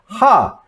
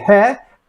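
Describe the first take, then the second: First: The letter name ends in an 'ah' vowel. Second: The letter name ends in an 'eh' vowel. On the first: "Sometimes uh, it's uh, pronounced as uh, ha" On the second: "mostly if you say he, it uh, will be understood easily"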